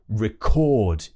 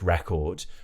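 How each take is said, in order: First: The stress is on the second syllable. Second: The stress is on the first syllable. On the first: It is used as a verb. "the stress is shifting" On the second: It is used as a noun. "a music record"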